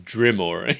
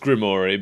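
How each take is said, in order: First: The name begins with a D sound. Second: The name begins with a G sound. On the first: "pronouncing it with a D" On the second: "Everyone else says"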